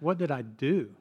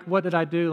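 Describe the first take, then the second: First: Mildly pained, retold child's question; a touch of hurt, lightly imitated; tearful question. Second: Mock-defensive question, slightly raised; mildly imitated defensive retort. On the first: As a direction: ask it like a hurt child, understated. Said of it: "began to cry and asked". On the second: Shown as a demonstration. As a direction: push the question back, lightly defensive. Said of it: "like defensive".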